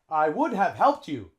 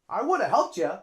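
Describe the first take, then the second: First: 'Would have' is said in full, unreduced. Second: 'Would have' is reduced to 'woulda'. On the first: The speaker calls it wrong. "Native English speaker wouldn't say that" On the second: The speaker calls it right. "A native English speaker would say"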